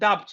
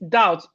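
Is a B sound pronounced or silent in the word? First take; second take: pronounced; silent. First: A B sound is pronounced in the word. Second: No B sound is pronounced in the word. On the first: The speaker calls it wrong. "So we don't say uh, doubt" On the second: The speaker calls it right. "No, is doubt. ... The B in doubt is silent"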